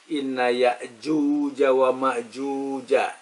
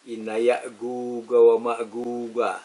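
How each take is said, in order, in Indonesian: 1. Konsonannya dilafalkan seperti bunyi j. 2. Konsonannya dilafalkan sebagai g keras. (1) "tulisnya jim" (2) "Yang membaca dengan yin"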